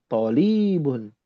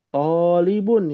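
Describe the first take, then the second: First: The first vowel is short, the second long. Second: The first vowel is long, the second short. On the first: The speaker calls it wrong. "bukan tolibun" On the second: The speaker calls it right. "yang betul"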